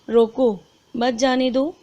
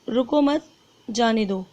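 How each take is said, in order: First: There is a pause after 'roko'. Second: There is a pause after 'mat'.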